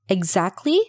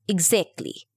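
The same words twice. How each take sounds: First: It is said with standard vowels. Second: It is said with New Zealand vowels.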